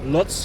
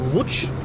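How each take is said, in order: First: The name is said with a German pronunciation. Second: The name is said with a local pronunciation. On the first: The speaker calls it wrong. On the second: The speaker calls it right.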